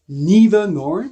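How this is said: It is said with an American pronunciation.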